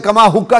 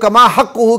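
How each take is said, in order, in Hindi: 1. इसमें सादा 'k' है और यह 'kka' पर खत्म होता है। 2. इसमें गहरा 'q' है और यह 'huhu' पर खत्म होता है। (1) "कमा हुक्का कहता था" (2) "कमा हक़्क़ुहु की जगह"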